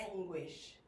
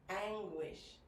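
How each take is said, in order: No difference in how they are said.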